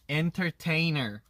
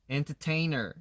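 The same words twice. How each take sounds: First: The word is said tightly and carefully. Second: The word is said tightly and carefully.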